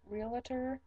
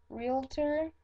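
First: Realtor as "REEL-uh-ter"; three-syllable pronunciation. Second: Realtor as "REEL-ter"; two-syllable pronunciation. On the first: Trying the other way, three-syllable Realtor. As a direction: slip an extra uh into Realtor. Contrasting takes from word list. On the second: Reading a word list, two-syllable Realtor. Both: Shown as a demonstration.

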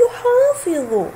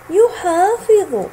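First: Slow teaching read. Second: يحافظ stretched slowly, each sound drawn out; teacher modelling يحافظ slowly; slow spelled out. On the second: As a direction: draw out يحافظ slowly for the class. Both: Shown as a demonstration. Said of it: "انظر كيف أمسك حرف الضاد".

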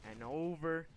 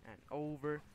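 No difference in how they are said.

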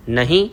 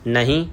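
First: Mildly disbelieving, sharply rising question; surprised, upturned one-word question; questioning echo. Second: Said in the usual way. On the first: A narrator's reading. She echoes his no in disbelief.

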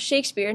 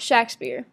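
First: Shakespeare said as SHAKE-speer; long A, as in shake, in Shakespeare. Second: Shakespeare said as SHACK-speer; short A, as in shack, in Shakespeare. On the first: Narrator giving Disraeli's preferred pronunciation, Shakespeare said SHAKE-speer. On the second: Narrator showing the rejected pronunciation, Shakespeare said SHACK-speer. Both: Shown as a demonstration. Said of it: "it was meant to be pronounced".

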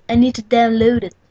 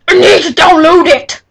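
First: Said in the usual way. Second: Louder and higher, exasperated; frustrated shout. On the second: Real, not acted. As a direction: blurt it out in frustration.

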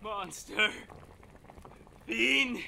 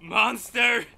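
First: Breathless, much softer rising "Monster."; "Monster." barely voiced, rising in dread; hushed horror. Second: Said in the usual way. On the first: Horrified man faces alien captor.

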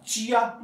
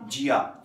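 First: चिया with an initial ch sound. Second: जिया with an initial j sound. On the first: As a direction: start चिया with a crisp ch, as in chair. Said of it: "इसको चिया pronounce किया जाता है". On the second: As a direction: start जिया with a voiced j, as in jam. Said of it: "some Chinese को जिया भी pronounce". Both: Shown as a demonstration.

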